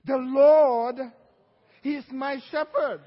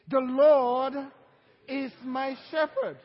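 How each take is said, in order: First: THE LORD shouted out to the congregation; leading the church in a loud declaration; loud call and response. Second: Loud call and response. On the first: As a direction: call it out loud so they repeat. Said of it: "So say it with me". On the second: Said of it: "Say it with me". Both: Shown as a demonstration.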